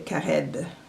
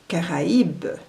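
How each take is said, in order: First: The a and i merge into one sound. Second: The a and i are two separate syllables. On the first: The speaker calls it wrong. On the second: The speaker calls it right.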